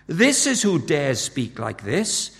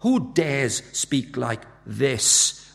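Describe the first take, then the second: First: First "This" stressed as the pointed answer; slow answer leaning on the opening "This", rising at the end. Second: "Who dares speak like this" drawn out very slowly as a question; weighty, drawn-out rhetorical question; slow challenge. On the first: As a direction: land hard on the first "This". Answer to the repeated question. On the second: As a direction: stretch each word of "Who dares speak like this". Question set against its answer. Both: Acted.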